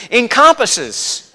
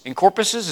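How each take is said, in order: First: Encompasses said slowly and clearly as "en-CUM-pus-sez"; slow deliberate correction of Encompasses; corrected pronunciation. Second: Encompasses said as "en-CORE-pusses", quieter, unsure; trying out encompasses hesitantly; half-doubtful first try at encompasses; tentative pronunciation. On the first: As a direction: stretch out Encompasses carefully, syllable by syllable. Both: Shown as a demonstration. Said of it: "is that a word?".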